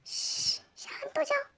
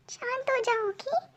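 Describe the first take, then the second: First: Soft unvoiced whisper, soothing. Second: Much softer, voiced but hushed reassurance; calm her gently under the breath. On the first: Chef quietly calms the panicking girl, soft whisper. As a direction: whisper it so nobody outside hears. Calming her secretly. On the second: Chef soothes the girl again, hushed reassurance.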